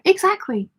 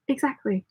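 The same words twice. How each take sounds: First: Exactly! pitched way up; emphatic high exactly. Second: Said in the usual way. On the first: Real, not acted. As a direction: exclaim exactly in strong agreement. Emphatic agreement with comment.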